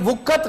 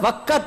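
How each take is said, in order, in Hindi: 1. पहला स्वर 'u' की ध्वनि है। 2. पहला स्वर 'a' की ध्वनि है। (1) "ये वुक्कत गलत है" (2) "वक़्त है, वाव के ऊपर जबर है"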